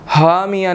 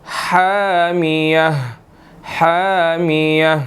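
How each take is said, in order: First: हामिया with a plain h; wrong plain h. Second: हामिया, throat h; throaty ha. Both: Shown as a demonstration. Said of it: "हामिया नहीं पढ़ना इसको".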